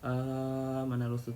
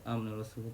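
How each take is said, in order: First: The long vowel is stretched well beyond two counts. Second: The long vowel is held briefly, about two counts. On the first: The speaker calls it wrong. "tak boleh baca panjang daripada dua" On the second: The speaker calls it right. "Dia kalau baca pendek"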